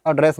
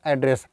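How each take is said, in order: First: "एड्रेस" as uh-DRESS, short uh first; verb pronunciation. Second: "एड्रेस" as AD-ress, open a first; noun pronunciation. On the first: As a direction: show "एड्रेस" as uh-DRESS, the form to avoid for the noun. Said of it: "एड्रेस मत बोलना". ("एड्रेस" को "अड्रेस" बोलें) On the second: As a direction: pronounce "एड्रेस" as the word for a postal address, AD-ress. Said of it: "पता को हम क्या बोलते हैं". ("एड्रेस" को "ऐड्रेस" बोलें) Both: Shown as a demonstration.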